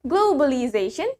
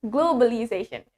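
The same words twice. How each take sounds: First: "globalization" with a rounded "glow" and W glide; British-style "globalization", rising at the end. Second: "globalization" with a plain O, no W glide; American-style "globalization", falling at the end. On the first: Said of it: "In British". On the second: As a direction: say "globalization" with a simple "glo". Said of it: "In America". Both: Shown as a demonstration.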